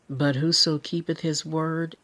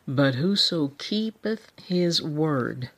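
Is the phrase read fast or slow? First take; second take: fast; slow. First: The phrase is read at a quick pace. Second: The phrase is read at a slow pace. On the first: The speaker calls it wrong. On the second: The speaker calls it right.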